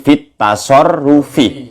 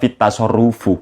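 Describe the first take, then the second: First: The last word ends with an 'i' vowel. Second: The last word ends with an 'u' vowel. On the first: The speaker calls it right. "Jadi fit tasarrufi" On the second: The speaker calls it wrong. "Jangan dibaca fit tasarrufu"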